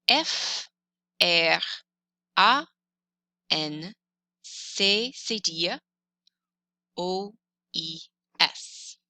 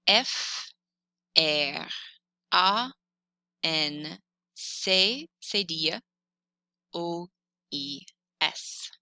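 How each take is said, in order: No difference in how they are said.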